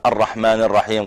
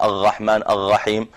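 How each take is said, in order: First: Said in the usual way. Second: الرحمن الرحيم said "aghaghman aghagheem"-like, with gh for every r; r turned to ghayn. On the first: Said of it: "بدل ما يقول". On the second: Shown as a demonstration. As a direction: slowly swap each r in الرحمن الرحيم for a throaty gh. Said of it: "يبدل الراء غين". (لثغة الراء غينا في الرحمن الرحيم)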